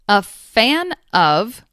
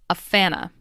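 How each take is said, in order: First: The word 'of' is said in full. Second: The word 'of' shrinks to a schwa sound. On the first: "A fan of becomes" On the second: "becomes a fanna"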